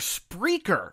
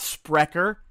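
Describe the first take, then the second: First: The name sounds like 'speaker' with an R. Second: The name does not sound like 'speaker'. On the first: The speaker calls it right. "That is how they pronounce it themselves" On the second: The speaker calls it wrong. "we have been mispronouncing the name of the host. It's not Sprecher"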